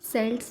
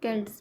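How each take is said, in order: First: The word begins with an S sound. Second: The word begins with a K sound. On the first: "सेल्ट्स भी बोल सकते हैं" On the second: "और केल्ट्स भी, but हम इनको केल्ट्स ही बोलेंगे"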